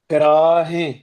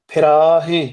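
Both takes have the same delivery.

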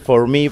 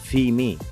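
First: It is said in standard English pronunciation. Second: It is said in patois pronunciation. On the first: "en vez de decir for me" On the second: "dicen fee me"

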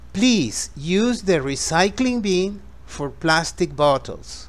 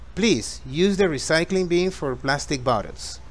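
First: The sentence is spoken at a slower pace. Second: The sentence is spoken at a faster pace.

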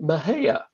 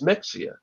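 First: The middle x is not sounded as written. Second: The middle x is sounded as written. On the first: This is how local people say it. The speaker calls it right. "But the locals pronounce it Mejia" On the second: This is how it looks from the spelling. The speaker calls it wrong. "So you look at it, you think, okay, that's Mexia"

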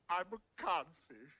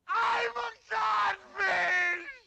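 First: It is said quietly. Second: It is said loudly.

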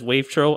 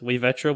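First: The name is said with two syllables. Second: The name is said with three syllables. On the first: This is how many other people say it. "numerous people just say it as wave-tro" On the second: This is the originally intended pronunciation. "I originally had my username, like, pronounced as way-VEH-tro"

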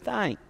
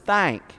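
First: The word is said with light, ordinary emphasis. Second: The word is said with strong, added emphasis.

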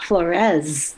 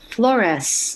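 First: The final consonant is a buzzing Z sound. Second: The final consonant is a hissing S sound. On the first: The speaker calls it wrong. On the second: The speaker calls it right. "my last name is with an S"

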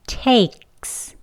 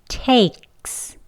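First: A throat catch comes before the s. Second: The same.

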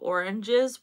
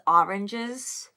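First: It is said with a standard accent. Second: It is said with a New York accent. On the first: "instead of oranges" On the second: "my mom says oranges"

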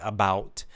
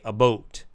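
First: The vowel in about sounds like ow. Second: The vowel in about sounds like oh. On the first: This is how Americans say it. "an American will say about" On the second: This is how some Canadians say it. "some Canadians will say about. Instead of ow, they say oh"

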